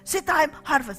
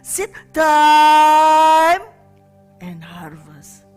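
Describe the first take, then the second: First: It is said quickly, rushing to harvest. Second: It is said slowly, with time between.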